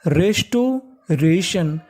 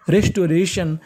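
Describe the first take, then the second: First: restoration stretched very slowly, syllable by syllable; very slow model word. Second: Said in the usual way. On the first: Shown as a demonstration. Teacher joining the pieces slowly for students. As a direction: draw restoration out at half speed. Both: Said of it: "तो पूरी meaning मिला के पढ़ते हैं".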